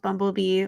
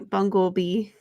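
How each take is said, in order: First: The word is said with a plain 'bum' sound. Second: The word is said with a 'bung' sound.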